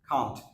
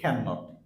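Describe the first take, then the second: First: It is said as one contracted syllable. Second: It is said as two full words. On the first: The speaker calls it right. "Sound হবে কান্ট" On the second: The speaker calls it wrong. "আমরা অধিকাংশ বলি ক্যান নট, ক্যান নট না"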